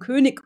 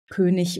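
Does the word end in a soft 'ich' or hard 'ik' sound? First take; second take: ik; ich. First: The ending is a hard 'ik' sound. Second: The ending is a soft 'ich' sound. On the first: This is an attempt to sound correct while performing. The speaker calls it wrong. "weil sie denken, das sei richtig. Ja, dann verschlimmbessern sie es" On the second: This is the speaker's everyday way of saying it. The speaker calls it right. "die sagen eigentlich König oder wichtig"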